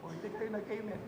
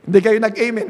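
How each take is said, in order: First: Much softer, as if off mic; a faint off-mic "hindi kayo nag-amen"; barely audible. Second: "Hindi kayo nag-amen" said louder, back on mic; "Hindi kayo nag-amen" at full volume. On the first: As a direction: drop to a faint distant voice. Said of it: "walang mic". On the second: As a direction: project it clearly to the room. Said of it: "hindi nyo na nga narinig". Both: Shown as a demonstration.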